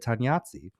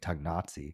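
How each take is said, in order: First: The middle is said with an ny sound. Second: The middle is said with a hard G. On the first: The speaker calls it right. "the way I just said it" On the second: The speaker calls it wrong. "I was with a hard G"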